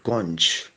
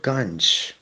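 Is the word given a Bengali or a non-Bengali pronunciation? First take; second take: Bengali; non-Bengali. First: It is said with a Bengali pronunciation. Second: It is said with a non-Bengali pronunciation.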